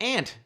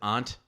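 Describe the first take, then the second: First: The word is said in a general American accent. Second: The word is said in a Boston accent. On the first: "everyone else is like aunt" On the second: "only Boston area says aunt"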